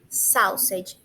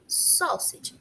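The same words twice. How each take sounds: First: The first vowel is a diphthong, like au. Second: The first vowel is a single open o. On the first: The speaker calls it wrong. "A gente não pronuncia sausage" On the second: The speaker calls it right. "É como se ali tivesse um O, um O agudo"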